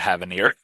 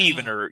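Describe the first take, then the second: First: The name is said as Havanir. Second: The name is said as Heavener. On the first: The speaker calls it wrong. "I think I've gotten scolded for calling it the Havanir" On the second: The speaker calls it right. "You're right"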